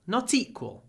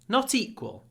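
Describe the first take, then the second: No difference in how they are said.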